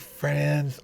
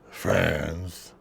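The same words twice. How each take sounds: First: The word is said in a plain, sincere tone. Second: The word is said in a mocking, condescending tone. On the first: The word is meant literally. "did he say it like real life" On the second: The word is meant ironically, not literally. "or did he say it condescendingly"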